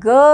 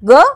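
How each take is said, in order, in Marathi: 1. हा आवाज दीर्घ उच्चारला जातो. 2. हा आवाज ह्रस्व उच्चारला जातो. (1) "दीर्घ ग" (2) "ह्रस्व ग"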